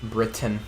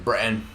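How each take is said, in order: First: The T is clearly pronounced in the middle. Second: The T is dropped, replaced by an H-like breath.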